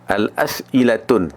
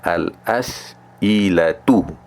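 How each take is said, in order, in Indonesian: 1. Kata itu berakhir dengan bunyi n tambahan. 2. Kata itu berakhir dengan vokal, tanpa n. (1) "Al-as'ilatun tak betul" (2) "Kita kena kata al-as'ilatu"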